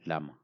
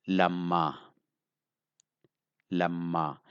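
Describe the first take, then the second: First: Lama said quickly with a single light m; short and soft. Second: Lama with a doubled, held m and long final a; strong sound. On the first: Teacher giving the original word, short and soft. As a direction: keep Lama short, no held sounds. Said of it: "It is short". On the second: Teacher showing learners a changed word, strong and drawn out. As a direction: say Lama strong, holding the middle m. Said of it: "I made it strong". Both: Shown as a demonstration.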